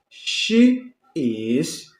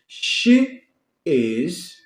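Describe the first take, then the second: Both takes have the same delivery.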